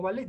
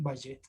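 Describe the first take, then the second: First: "ballet" read as "ba-let", with a single l; correct ballet. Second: "ballet" wrongly read as "ba-yet"; mispronounced ballet. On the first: Shown as a demonstration. Teacher explaining how ballet is read, with an l. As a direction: pronounce "ballet" with an l sound, not y. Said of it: "se lee como ballet". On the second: Retold or imitated. Teacher imitating students who misread ballet, mispronounced. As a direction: say "ballet" with ll turned to a y sound. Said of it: "lo dicen ballet".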